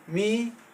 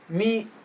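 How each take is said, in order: First: The pitch rises across the word. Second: The pitch falls across the word. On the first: It means a spider. "rising toni" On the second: It means a human being. "falling toni"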